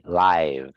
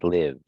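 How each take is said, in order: First: The vowel is long, like in 'five'. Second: The vowel is short, like in 'give'. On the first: It is the adjective meaning happening in the moment. "But this one is I, live, adjective" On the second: It is the verb meaning to reside. "To live, like I live in Chicago, that's live"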